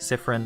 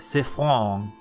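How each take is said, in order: First: The name is said in plain English style. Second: The name is said in a French style. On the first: "if I just want to say it normally" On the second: "If I want to be French, I shall say Siffron"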